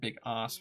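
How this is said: It is said with a British pronunciation. "Big ass would be just the more U K pronunciation"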